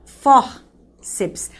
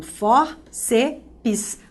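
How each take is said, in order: First: Fórceps said slowly, split into fór and ceps; slow syllable split. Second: Fórceps said as fór-ce-pis, an extra syllable on the end; mock the common wrong split, fór-ce-pis. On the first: Teacher slowly splits fórceps into syllables. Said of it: "Essa é a separação silábica". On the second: Teacher imitates students adding a syllable to Fórceps. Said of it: "Qual é o erro". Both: Shown as a demonstration.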